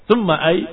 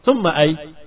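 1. Kata itu berakhir pada konsonan saja. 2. Kata itu berakhir pada konsonan saja.

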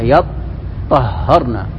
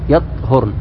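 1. صوت التاء مشدد ويُنطق مدة أطول. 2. صوت التاء مخفف وغير مشدد. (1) "وتشديدها" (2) "بسكون الطاء"

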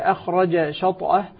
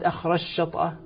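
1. يُنطق صوت الجيم منفصلا قبل الشين. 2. تُدغم الجيم في صوت شين مشدَّد.

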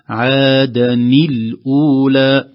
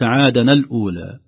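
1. تأتي بعد نون الربط حركة 'i'. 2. تأتي بعد نون الربط حركة 'a'. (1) "نكسرها على اعتبار التقاء الساكنين" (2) "فقد يقول بعضهم"

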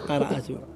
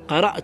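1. Une voyelle brève suit le coup de glotte. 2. Aucune voyelle ne suit le coup de glotte.

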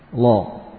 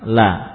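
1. Suku kata itu berat dengan vokal seperti o yang membulat. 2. Suku kata itu ringan dengan vokal a yang terbuka. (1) "Bukan lagi la tapi apa? Lo. Seperti huruf isti'la" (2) "Coba dibaca lam fathah apa bunyinya?"

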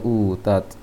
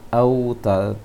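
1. Kata ini diawali dengan bunyi 'u'. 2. Kata ini diawali dengan bunyi 'au'. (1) "tadi terbaca utat" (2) "seharusnya autat karena hamzahnya berharokat fathah"

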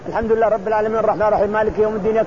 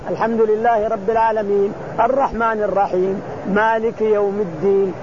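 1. الآيات مستعجلة ومتلاصقة بسرعة كبيرة. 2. الآيات تتصل ببعضها دون توقف بينها. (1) "ما تسمى قراءة هذه" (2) "وإن شئت أن تتلوها متتابعة"

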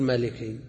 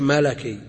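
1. الحرف الثاني يحمل الحركة 'i'. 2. الحرف الثاني يحمل الحركة 'a'. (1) "ما تقول ملكي" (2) "فإذا كانت اللام أو الحرف الثاني من الكلمة مكسور فتح في النسب"

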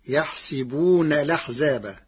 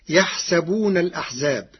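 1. الحركة على صوت 's' هي 'i'. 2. الحركة على صوت 's' هي 'a'.

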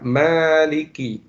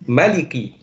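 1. Vokal pertama dibaca panjang. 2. Vokal pertama dibaca pendek. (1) "ada alif setelah mim, atau mimnya dibaca mad" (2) "Ada qira'ah sab'iyyah, qira'ah yang 7, yang lain"

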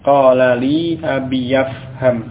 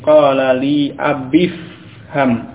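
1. Suku kata 'ya' terdengar di antara abi dan fham. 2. Abi langsung bersambung ke fham tanpa suku kata ya. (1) "ya dibaca dengan fathah dulu baru kemudian ke huruf fa" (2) "dari ba yang kasrah langsung ke fa yang sukun"

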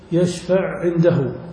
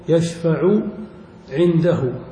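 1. يُدغم الحرفان العينان في حرف واحد. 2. يُنطق الحرفان العينان منفصلين.

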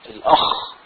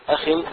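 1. صوت "kh" مضعّف ومُطوَّل. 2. صوت "kh" مخفّف وخفيف. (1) "الأخ تشديد الخاء كده، دي من لهجة مصرية" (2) "الخاء مخففة والباء مخففة"

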